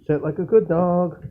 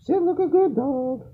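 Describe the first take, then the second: First: Said in the usual way. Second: Much higher coaxing voice on good dog; high pet-talk command. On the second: Real, not acted. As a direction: coax it up high like talking to a puppy.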